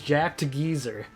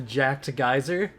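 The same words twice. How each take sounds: First: Geyser is said the British way, like 'geezer'. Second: Geyser is said the non-British way.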